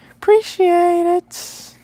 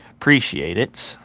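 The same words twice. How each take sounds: First: Very high, slow squeaky thanks. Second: Said in the usual way. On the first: Shown as a demonstration. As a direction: squeak it out slowly like a cartoon. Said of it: "high squeaky repeat". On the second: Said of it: "first take plain".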